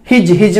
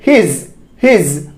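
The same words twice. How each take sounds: First: हिज ending in J, "hij"; common mispronunciation. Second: हिज ending in Z, "hiz", spoken slowly; correct Z ending. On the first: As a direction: mimic हिज with J for Z. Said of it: "लोग बोलते हैं". (हिज के अंत में ज की गलत ध्वनि) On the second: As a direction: model हिज twice, slowly, as हिज़. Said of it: "इसको हिज नहीं बोलेंगे". (हिज के अंत में ज़ की ध्वनि, धीरे) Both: Shown as a demonstration.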